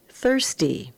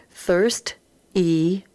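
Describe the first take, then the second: First: Said in the usual way. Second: Thirst-y split into Thirst and y, said slowly, rising at the end; syllable by syllable. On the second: Shown as a demonstration. Teacher sounding out a word for the class, split slow. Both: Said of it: "read across and then put together".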